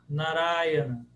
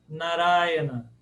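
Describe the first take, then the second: No difference in how they are said.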